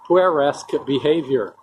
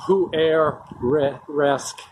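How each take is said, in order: First: Said in the usual way. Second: Puer-esque drawn out syllable by syllable, very slow; careful slow spelling-out. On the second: Shown as a demonstration. Explaining a Latin-derived word, drawn out slowly.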